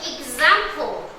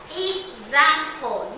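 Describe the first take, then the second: First: "Example" stretched slowly as ex-am-ple; slow syllable demo. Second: "Example" said very slowly as ex-am-ple; slow syllable demo. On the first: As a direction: spell "Example" out slowly, beat by beat. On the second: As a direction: draw "Example" out, one beat per syllable. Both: Shown as a demonstration. Teacher to class, splitting the word slowly. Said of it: "that's the X A M".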